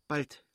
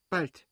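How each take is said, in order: First: A short, higher tense word. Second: Higher, louder urgent cry; the pain is coming now; tense cry. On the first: Kitty tells the midwife it comes soon, tense. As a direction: brace for the next pain. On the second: Kitty cries out to the midwife, higher and louder. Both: Acted. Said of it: "Sie redete rasch".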